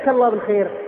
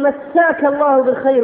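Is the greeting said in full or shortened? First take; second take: shortened; full. First: The first word is clipped to a single syllable. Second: Every syllable of the first word is said. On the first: It sounds like a comparison with God. The speaker calls it wrong. "عبارة خاطئة خطيرة" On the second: May God grant you a good evening. The speaker calls it right. "لابد أن نقول مساك الله بالخير"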